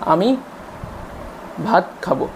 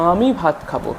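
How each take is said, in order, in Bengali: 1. বাক্যের মাঝখানে একটি বিরতি আসছে। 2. প্রথম শব্দটি অনেকক্ষণ ধরে টেনে বলা হচ্ছে। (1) "মাঝখানে একটা কথার মাঝখানে পজ থাকছে" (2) "এখানে আ কথাটা একটানা বাচ্চা উচ্চারণ করে গিয়ে তারপরে নেক্সট কথাটা বলছে"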